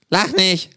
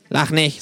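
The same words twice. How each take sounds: First: Mildly indignant, higher-pitched call. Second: Understated don't-laugh complaint; subdued protest. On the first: Sick kangaroo to its laughing flatmate, indignant call. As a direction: snap it out as a mild protest. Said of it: "ruft das Känguru". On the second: Kangaroo with plugged nostril to flatmate, subdued protest. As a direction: say it as a small, resigned objection. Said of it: "sagt es". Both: Acted.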